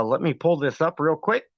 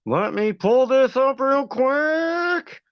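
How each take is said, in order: First: Said in the usual way. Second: High, slow, stretched-out delivery; singsong stalling. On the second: Pretend. Streamer stalls while pulling up recording, playful high drawl. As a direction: draw every word out high, stretching QUICK. Drawn-out mock repeat of own words.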